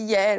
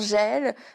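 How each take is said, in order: First: The name begins with a 'y' sound. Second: The name begins with a soft 'j' sound. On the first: The speaker calls it right. "mais ça se dit Yaël" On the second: The speaker calls it wrong. "moi je dis souvent Jaël"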